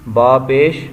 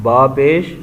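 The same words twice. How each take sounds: Both takes have the same delivery.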